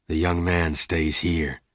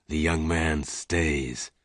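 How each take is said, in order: First: Said in the usual way. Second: Softer, slow, firm repeat; quiet firm repeat. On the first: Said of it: "the big stranger said quietly". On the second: A narrator's reading. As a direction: say it again, slow and unmoving. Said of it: "the stranger said again".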